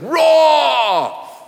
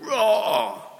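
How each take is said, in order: First: The roar is very loud. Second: The roar is fairly quiet.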